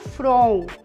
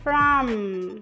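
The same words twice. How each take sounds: First: It ends in a nasal vowel without lip closure. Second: It ends with the lips fully closed on m. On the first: The speaker calls it wrong. "Esse from é um nasal, como no português" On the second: The speaker calls it right. "que eu fecho os lábios"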